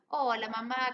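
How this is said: The greeting sounds cheerful and upbeat. The speaker is in a good mood. "uy, qué buen estado de ánimo"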